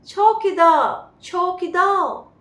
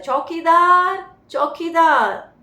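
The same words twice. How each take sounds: First: A loud, slow call of चौकीदार in an Englishman's accent; English accent. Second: A loud, slow call of चौकीदार in a Bengali Indian accent. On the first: Teacher shows how the Englishman calls the watchman, English accent. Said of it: "नहीं, ये कैसे बोल रहा है". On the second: Teacher shows how a Bengali Indian calls the watchman, Bengali accent. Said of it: "जैसे Bengali Indian क्या बोलता है". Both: Shown as a demonstration.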